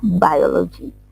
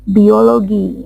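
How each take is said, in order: First: It is pronounced the English way. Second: It is pronounced the Indonesian way. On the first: The speaker calls it right. "harusnya biology" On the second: The speaker calls it wrong. "teman-teman bilangnya biologi"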